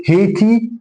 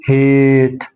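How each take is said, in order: First: هيتي with a sounded rising ee at the end; wrong final vowel. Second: هيت as long, slow "haaate" ending on t; silent final e. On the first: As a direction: voice the last e in هيتي, as a questioning mistake. (هيتي بنطق الإي في الآخر) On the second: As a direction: drop the final vowel and hold the middle of هيت. (هيت من غير إي في الآخر) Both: Shown as a demonstration. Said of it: "لا أقول هيت".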